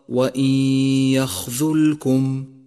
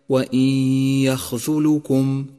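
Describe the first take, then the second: First: The l sound has no vowel after it. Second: The l sound is followed by a u vowel. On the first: The speaker calls it right. "فالصواب وإن يخذلكم" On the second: The speaker calls it wrong. "والخطأ الشائع وإن يخذلكم"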